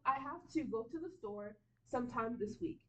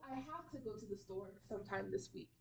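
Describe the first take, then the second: First: Each word is said fully and separately. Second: The words are shortened and run together. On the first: "this is appropriate. You can say this" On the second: "people would say something more like this"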